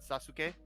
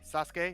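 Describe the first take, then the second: First: The su syllable is fully pronounced. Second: The su syllable is shortened, nearly dropped. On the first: The speaker calls it wrong. "not Sasuke" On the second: The speaker calls it right. "you say Sasuke"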